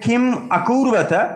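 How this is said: Kim is split off before the next word. The speaker calls it wrong. "ভাঙলে হবে কিম আকুর্বত"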